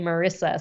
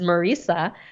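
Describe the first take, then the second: First: The name does not rhyme with Teresa. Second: The name rhymes with Teresa. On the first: The speaker calls it wrong. "A lot of people mispronounce it" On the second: The speaker calls it right. "So I say it's like Teresa"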